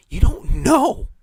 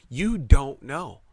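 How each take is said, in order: First: High, slow, stretched emphasis on "know"; emphatic. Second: Said in the usual way. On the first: Shown as a demonstration. Warning listeners about hidden risks, slow emphatic stretch. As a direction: drag out "you don't know" high and slow, rising at the end.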